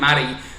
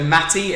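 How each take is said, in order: First: The T sounds are dropped or softened. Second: The T sounds are clearly pronounced. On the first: People here mishear the name. The speaker calls it wrong. "because I've been saying Matty" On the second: People here understand the name. The speaker calls it right. "I've got to pronounce the T's in it"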